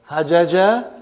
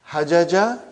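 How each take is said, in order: No difference in how they are said.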